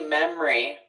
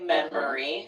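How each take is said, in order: First: The word is said with two syllables. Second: The word is said with three syllables. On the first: "I say memory. Two syllables" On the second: "Three syllables"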